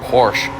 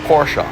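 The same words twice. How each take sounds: First: The word is said with one syllable. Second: The word is said with two syllables. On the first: The speaker calls it wrong. "you hear the word Porsche said all the time" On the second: The speaker calls it right. "it's two syllables"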